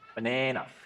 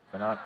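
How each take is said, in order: First: It is said in an American accent. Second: It is said in an Australian accent.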